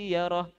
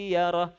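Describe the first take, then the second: No difference in how they are said.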